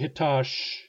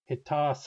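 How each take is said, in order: First: The S and H merge into one 'sh' sound. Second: An S is followed by a separate back H. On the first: The speaker calls it wrong. "don't say hitash" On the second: The speaker calls it right. "Those are two sounds, an S and a back H"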